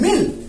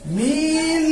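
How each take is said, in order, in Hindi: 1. स्वर छोटा और झटके से बोला गया है। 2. स्वर लंबा खिंचा हुआ है। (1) "झटके से पढ़ेंगे" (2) "आप इसे खींचकर नहीं पढ़ेंगे"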